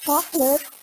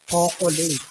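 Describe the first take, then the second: First: It is said in an American accent, two syllables. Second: It is said in a plain Tagalog accent. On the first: "Pag nasa Amerika naman, may arte na; Naging dalawang syllable na lang siya" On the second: "Sa Maynila, siyempre, Tagalog na Tagalog mga tao doon"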